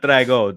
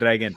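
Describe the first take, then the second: First: The name ends without a final n sound. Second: The name ends with a final n sound. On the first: The speaker calls it wrong. "Not Drago" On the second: The speaker calls it right. "some people drop the N, and they shouldn't"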